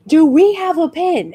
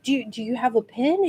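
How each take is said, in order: First: "WE" pushed higher in an insistent question; insistent mock request. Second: Soft mock request. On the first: Actor still needing something to sign with, mock insistent. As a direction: raise pitch on "Do we", imitating an impatient ask. Actor asks again, to others. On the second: Actor's first, tentative request retold.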